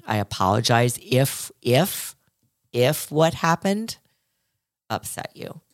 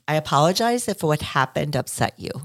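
First: Slower, dragged-out insincere apology; slow hollow apology. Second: Lightly voiced insincere apology; mock hollow apology. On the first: Retold or imitated. Host mocking a non-apology, slow and hollow. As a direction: draw it out as a half-hearted sorry. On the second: Host mimicking a hollow apology, lightly insincere. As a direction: say it smoothly, not really meaning it. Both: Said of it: "That's not taking responsibility".

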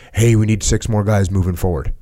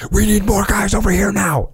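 First: Composed, even radio call; measured, matter-of-fact radio request; calm radio voice. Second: High, strained mock panic; mock frantic call, pitched way up; imitating panicked radio call. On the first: Retold or imitated. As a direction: say it calm and under control. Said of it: "say it calm". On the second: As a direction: act like you're freaking out on the radio. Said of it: "Don't sound like that on the radio".

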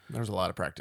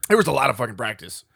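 First: There was a lot of practice said low and soft; softer low repeat. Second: Said in the usual way. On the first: Real, not acted. Correcting his swear, repeating it more softly. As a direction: drop the swear, say it quietly.

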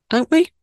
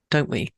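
First: Much higher, louder, rising don't we; playful echo. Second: Said in the usual way. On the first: Acted. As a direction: toss it back to listeners with a bright upward lift. Repeats question, playfully emphatic.

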